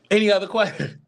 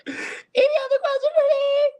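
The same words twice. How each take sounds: First: Said in the usual way. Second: Very high squealed question; playful squeal. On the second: Pretend.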